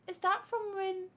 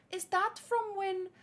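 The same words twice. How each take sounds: The two takes are said the same way.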